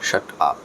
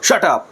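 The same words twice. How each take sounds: First: It is said gently and calmly. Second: It is said harshly and angrily. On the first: A polite request to be quiet. "খুব সুন্দর করে বললাম" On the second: The speaker is extremely angry. "তার মানে কিন্তু আমি প্রচণ্ড রেগে গেছি"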